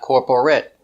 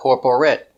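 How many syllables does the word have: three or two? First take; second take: three; three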